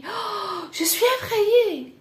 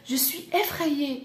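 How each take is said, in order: First: High-pitched gasp, then frightened cry; acted fright. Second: Said in the usual way. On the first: Shown as a demonstration. French teacher acting out being frightened, high and startled. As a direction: gasp and blurt it out in mock panic.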